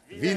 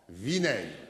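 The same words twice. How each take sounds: First: It is said louder. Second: It is said moderately loud.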